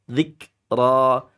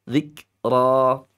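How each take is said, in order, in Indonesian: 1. Huruf k dilepaskan dengan hembusan napas yang hanya sedikit. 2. Huruf k dilepaskan dengan hembusan napas yang hanya sedikit.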